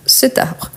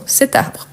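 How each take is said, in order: First: "cet arbre" repeated with the T linked, at normal pitch; liaison demo. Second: "Cet arbre" with the T linked, soft and high: "sé-tarbre"; liaison demo. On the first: Teacher repeats the liaison for the class, plainly. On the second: Teacher showing students the liaison, soft and high. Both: Shown as a demonstration. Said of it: "on fait la liaison".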